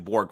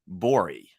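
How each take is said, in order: First: The word ends in a hard g sound. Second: The word ends in a soft y-like sound. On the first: This is the usual English pronunciation. "it's not Borg as in like the Borg from Star Trek" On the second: This follows the Swedish pronunciation. "he said something like yeah, like Merc Bori"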